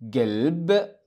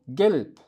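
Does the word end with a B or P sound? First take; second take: B; P. First: The word ends with a voiced b sound. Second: The word ends with a voiceless p sound. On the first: The speaker calls it wrong. "نحن لا نقول قلب" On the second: The speaker calls it right. "بل نقول قلب"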